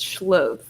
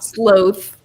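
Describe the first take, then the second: First: The name starts with an 'sh' sound. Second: The name starts with a plain 's' sound. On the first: The speaker calls it right. "It's schloth" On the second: The speaker calls it wrong. "It's not sloth"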